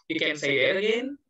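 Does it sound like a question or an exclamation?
question. It sounds like a question.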